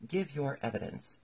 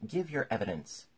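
First: Higher-pitched royal command; lightly voiced king ordering a witness; king's order. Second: Mildly angry kingly order; understated, irritated command. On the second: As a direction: repeat the order with a touch of anger. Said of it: "the king repeated angrily". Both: A narrator's reading.

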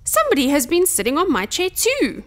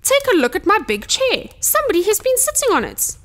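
First: Lightly voiced Mother Bear, higher and lilting; a touch of softness, pitched up; mildly dismayed, gentle bear mother; soft voice. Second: Indignant Father Bear, pitched high; big bear's outraged cry; gruff roar. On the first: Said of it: "said Mother Bear in her soft voice". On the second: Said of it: "roared Father Bear in his big, gruff voice". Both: A narrator's reading.

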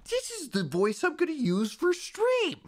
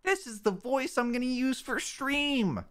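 First: Very high, squeaky mock streamer. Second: Very high, put-on streamer tone. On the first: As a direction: push it right up into falsetto. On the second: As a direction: squeak it out like a fake streamer. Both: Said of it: "my new streamer voice".

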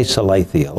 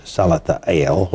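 First: Salathiel said suh-LAY-thee-el; first pronunciation. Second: Salathiel said sah-luh-thah-EL; alternative pronunciation. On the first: Host offering one option, Salathiel as suh-LAY-thee-el. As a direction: stress the LAY in Salathiel, with a long A. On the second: Host offering another option, Salathiel as sah-luh-thah-EL. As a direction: open AH sounds in Salathiel, ending on EL. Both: Shown as a demonstration. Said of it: "whatever you want to pronounce it".

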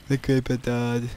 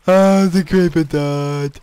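First: Lower, softer deadpan repeat; quiet echo. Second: Slow, drawn-out amazed exclaim; surprised. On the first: Repeating the news to himself, lower and softer. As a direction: murmur it to yourself. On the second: Watching the creeper die, drawn-out amazed exclaim. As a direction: marvel at it. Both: Real, not acted.

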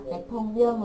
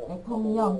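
First: "tẹt thông dơn" with a z-like d in "dơn"; mispronunciation demo. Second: "tẹt thông nhòn" with nasal nh in "nhòn"; assimilated pronunciation. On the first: Teacher showing the class an error, unassimilated "tẹt thông dơn". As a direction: drop the nasal nh, end on "dơn". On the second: Teacher confirming students' reading, nasalised "tẹt thông nhòn". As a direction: turn the last onset to nh: "nhòn". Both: Shown as a demonstration. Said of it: "chứ không phải là tẹt thông dơn là sai".

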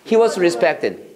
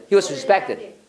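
First: Said in the usual way. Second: He was respected를 빨리 붙여서; 세 단어를 한 덩어리로 빠르게 읽기. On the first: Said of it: "빨리 해봐". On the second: Shown as a demonstration. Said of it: "진짜 빨리 나와야 돼". (He was respected, 막힘없이 빠르게)

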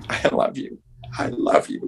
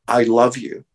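First: Soft unvoiced whisper. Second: "love" leaned on, each word weighted; stress on love. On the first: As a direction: breathe the words tenderly. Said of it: "heard her mother going". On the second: Shown as a demonstration. Retelling Lucille's goodbye to Desi, stress on love. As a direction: give "I love you" its emphasis on "love". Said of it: "putting emphasis on each".

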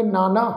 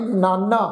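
First: Careful recitation form of ਨਾਨਾ; scriptural ਨਾਨਾ. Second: ਨਾਨਾ as the kinship word, maternal grandfather; grandfather-word pronunciation. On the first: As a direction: say ਨਾਨਾ as the word meaning various, not grandfather. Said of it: "ਇਸ ਸ਼ਬਦ ਦਾ ਪਾਠ ਉਚਾਰਨ ਕਰਾਂਗੇ". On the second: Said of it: "ਇਸ ਢੰਗ ਨਾਲ ਉਚਾਰਨ ਨਹੀਂ ਕਰਨਾ". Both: Shown as a demonstration.

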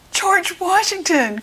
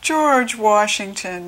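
First: High, thrilled shout of recognition; storybook cry of discovery; excited cry. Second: Lightly voiced glum mumble; storyteller's mild, woeful mumble. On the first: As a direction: cry the name out, pitched way up. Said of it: "cried Sam". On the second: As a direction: let the name droop, drawn out. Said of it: "mumbled Sam". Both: A narrator's reading.

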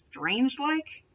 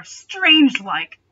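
First: Strange-like asked softly with a rising, doubtful tune; incredulous question. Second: Strange-like stretched slowly, louder and higher; drawn out. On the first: Real, not acted. Reader questions the fic's wording, softly incredulous. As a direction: query strange-like in quiet disbelief. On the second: Shown as a demonstration. Reader stumbles on the phrase, saying strange-like slow and drawn. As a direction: drag out strange-like as if tasting the odd word.

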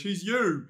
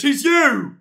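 First: Said in the usual way. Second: Loud, high accusing yell; shouted taunt. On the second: Real, not acted. Streamer accusing a chatter of being the creepy man, shouted taunt. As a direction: fling it back as an accusation. Repeated louder after plain take.

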